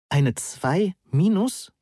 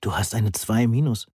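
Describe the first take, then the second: First: Slow, high-pitched "Eine zwei minus?" rising on "minus"; incredulous question. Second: Said in the usual way. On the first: A narrator's reading. Student echoing his exam grade, "Eine zwei minus?" asked slowly in disbelief.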